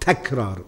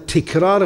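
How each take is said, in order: First: The first syllable has the vowel a. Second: The first syllable has the vowel i. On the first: The speaker calls it right. "صحيح" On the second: The speaker calls it wrong. "غلط"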